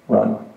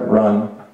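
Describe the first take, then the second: First: The word is said quietly, as if far away. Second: The word is said more loudly and urgently. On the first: "I heard this distant voice say" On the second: "it said it louder"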